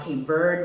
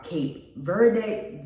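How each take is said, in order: First: Verde said "verd" with no final vowel; corrected Verde. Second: Verde said "ver-day" with an ending ay; wrong Verde. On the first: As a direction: clip "Cape Verde" to end on a hard d. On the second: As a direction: end "Cape Verde" on a clear "day" sound. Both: Real, not acted. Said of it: "I'm sorry, not Verde".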